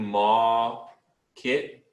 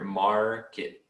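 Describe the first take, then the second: First: The R sound is dropped after the vowel. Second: The R sound is clearly pronounced after the vowel. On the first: The speaker calls it wrong. "You're saying ma kit, and you're skipping the R" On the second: The speaker calls it right. "You want to say the R stronger"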